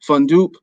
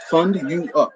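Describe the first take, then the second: First: The name is run together into two syllables. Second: The name is said as three separate syllables. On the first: The speaker calls it wrong. "So I get Fund Up, Fundoop" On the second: The speaker calls it right. "Just just sound it out"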